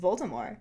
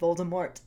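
First: The final T is silent. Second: The final T is clearly pronounced.

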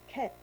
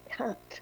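First: The vowel is an 'e' sound. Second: The vowel is an open 'a' sound. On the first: "he would say that the letter A was E" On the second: "no, it's k'at"

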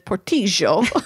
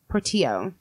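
First: The double L sounds like SH. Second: The double L sounds like a Y. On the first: "Unless you're Argentinian" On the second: "double L makes a Y"

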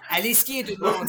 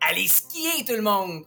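First: It is said fast. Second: It is said slowly and gently.

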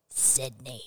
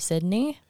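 First: It is said in a spooky Scream-killer voice. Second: It is said in her normal voice.

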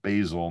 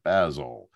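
First: Basil is said with an American pronunciation. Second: Basil is said with a British pronunciation. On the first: "back to Basil" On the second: "not Basil"

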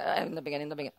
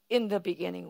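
First: It is drawn out slowly and flatly. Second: It is said forcefully with great intensity. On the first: It is read as a routine, familiar text. The speaker calls it wrong. "long, in the beginning. I don't read it like that" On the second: It is read as a momentous statement. The speaker calls it right. "I feel like earth shaking"

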